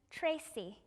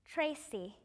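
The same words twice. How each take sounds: The two takes are said the same way.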